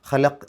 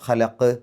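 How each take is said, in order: First: The final q stops flat without an echo. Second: The final q ends with a clear echoing bounce. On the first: The speaker calls it wrong. "ഖലഖ് എന്ന് പറഞ്ഞാൽ പോരാ" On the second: The speaker calls it right. "എടുത്ത് പറയണം"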